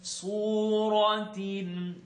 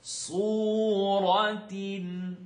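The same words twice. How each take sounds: No difference in how they are said.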